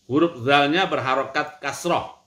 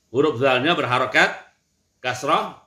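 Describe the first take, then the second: Both takes have the same delivery.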